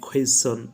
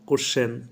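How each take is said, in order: First: It starts with a 'kw' sound before the vowel. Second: It starts with a plain 'k' sound, no 'w'. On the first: The speaker calls it right. "আমি বলি কোয়েশ্চন" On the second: The speaker calls it wrong. "তোমরা বলো কোশ্চেন"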